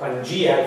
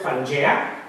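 First: It is said with an English pronunciation. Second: It is said with a non-English pronunciation.

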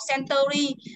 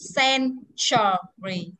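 First: The word is said without the ch sound. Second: The word is said with the ch sound. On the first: The speaker calls it wrong. "Thế kỷ không đọc century" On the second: The speaker calls it right. "mà thế kỷ đọc là century"

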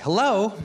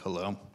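First: It is said in a cheerful voice. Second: It is said in a depressed voice.

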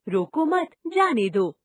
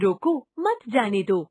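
First: The pause comes right after 'mat'. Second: The pause comes right after 'roko'.

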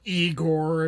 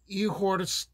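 First: The name is said the American way. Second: The name is said the Slavic way.

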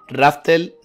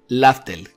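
First: The name begins with an R sound. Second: The name begins with an L sound. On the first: The speaker calls it wrong. "Raftel no" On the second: The speaker calls it right. "que es como Roger llamó a esta isla"

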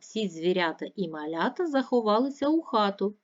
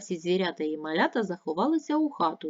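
First: It is spoken at a moderate pace. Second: It is spoken at a fast pace. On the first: "Послухайте" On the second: "Тепер швидше"

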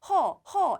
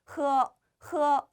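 First: The h is a soft, plain breath. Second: The h has a strong scraping throat friction. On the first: The speaker calls it wrong. "그냥 허 이게 아니라" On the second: The speaker calls it right. "허 이런 식으로 나요"

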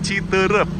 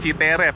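First: The name is pronounced with Sundanese sounds. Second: The name is pronounced without Sundanese sounds. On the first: The speaker calls it right. "harus bahasa Sunda gitu" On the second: The speaker calls it wrong.

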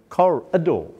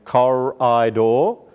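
First: The middle vowel is a short, reduced schwa. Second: The middle vowel is a full, clear vowel. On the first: The speaker calls it right. "Yes, it does" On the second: The speaker calls it wrong. "Didn't sound like a word he knew"

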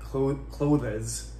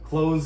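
First: It is two syllables with a clear TH sound. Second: It is one syllable with no clear TH sound. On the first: The speaker calls it wrong. "don't try and say like clothes... trying to pronounce it with the TH and another syllable" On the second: The speaker calls it right. "clothes is just one syllable. It actually sounds more like close"

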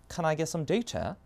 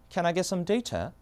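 First: It is said in a British accent. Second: It is said in a British accent.

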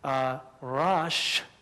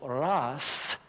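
First: The word ends in an sh sound. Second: The word ends in an s sound. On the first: This is the Hebrew form. "in Hebrew" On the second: This is the Arabic form. "in Arabic"

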